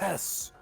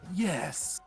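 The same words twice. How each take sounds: First: It is said with a very breathy voice. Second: It is said slightly breathy and unsure.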